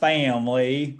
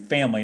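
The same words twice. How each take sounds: First: It is said in an exaggerated Southern-style accent. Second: It is said in the speaker's normal accent. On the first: This is a faked accent to fit in. The speaker calls it wrong. "I would not say family like that" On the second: This is the speaker's own usual way. The speaker calls it right. "Family like I usually do"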